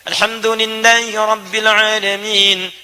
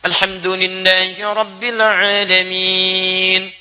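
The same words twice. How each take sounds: First: It is recited quickly, running into the next verse. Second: It is recited slowly, then followed by a pause. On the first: The verses are read quickly, as in night prayers. "kalau baca hadar" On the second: The follower gets time to recite each verse. "Jeda sebentar"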